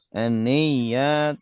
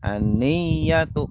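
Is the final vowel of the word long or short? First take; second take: long; short. First: The final vowel is drawn out long. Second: The final vowel is held short. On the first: The speaker calls it wrong. "Kalau aniyatu panjang berarti tulisannya harusnya begini" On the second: The speaker calls it right. "aniyatu pendek"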